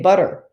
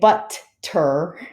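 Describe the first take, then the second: First: The middle sound is a soft D. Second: The middle sound is a crisp T. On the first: The speaker calls it right. "I say butter. ... you're actually putting a D sound in the middle" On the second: The speaker calls it wrong. "I don't say butter"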